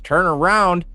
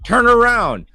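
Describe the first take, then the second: First: It rises at the end like a question. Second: It falls at the end like a statement.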